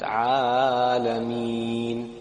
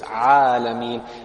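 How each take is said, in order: First: The long vowel is drawn out. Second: The long vowel is held only briefly. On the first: The speaker calls it wrong. "not Alameen. You can't pull Alameen" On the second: The speaker calls it right. "so it's Alameen"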